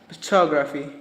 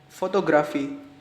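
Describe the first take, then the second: First: It is said with an English accent. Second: It is said with an Indonesian accent. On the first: The speaker calls it right. "the correct pronunciation is photography" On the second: The speaker calls it wrong. "is like Indonesian pronunciation"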